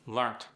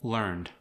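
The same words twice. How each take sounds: First: "Learnt" ending in a crisp T. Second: Said in the usual way. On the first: Shown as a demonstration. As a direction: sneak a T onto the end of "Learnt". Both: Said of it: "sneak a T in".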